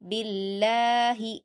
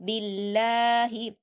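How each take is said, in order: No difference in how they are said.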